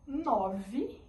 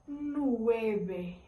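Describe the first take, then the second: First: "Nove" slowly, with a clear v; Portuguese pronunciation. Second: "Nueve" slowly, with the v said like b; Spanish pronunciation. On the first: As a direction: say "Nove" as no-vee. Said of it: "em português". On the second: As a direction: say "Nueve" as nweh-beh. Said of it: "em espanhol". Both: Shown as a demonstration.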